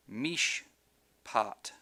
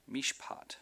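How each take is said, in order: First: "Mishpat" broken with a pause after Mish; split by syllable. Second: Said in the usual way. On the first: Shown as a demonstration. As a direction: say "Mishpat" slowly as two separate syllables, Mish, pat. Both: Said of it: "indicates the end of a syllable".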